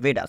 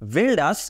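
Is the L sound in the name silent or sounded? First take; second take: silent; sounded. First: The L sound is left out of the name. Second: The L sound is pronounced in the name. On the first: The speaker calls it right. "এটার অ্যাকচুয়ালি উচ্চারণটা হবে হচ্ছে ভেডাস" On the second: The speaker calls it wrong. "এখানে যেটা লেখা- লেখা রয়েছে সেটা হচ্ছে ভেলডাস"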